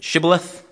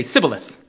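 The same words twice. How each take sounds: First: Said in the usual way. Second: "Sibboleth" with a plain S in place of SH; mispronounced Shibboleth. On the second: Shown as a demonstration. Outsider failing the password, saying "Sibboleth" with an S. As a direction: say "Sibboleth", sh turned to s. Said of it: "the way they say it would say".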